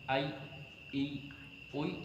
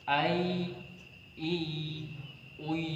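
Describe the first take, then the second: First: The final y sound is cut off abruptly. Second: The final y sound flows on continuously. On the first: The speaker calls it wrong. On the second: The speaker calls it right. "mengalir, mengalir"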